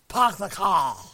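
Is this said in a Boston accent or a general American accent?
Boston. It is said with the r sounds dropped. The accent reveals where the speaker is from. "Are you from Massachusetts? No"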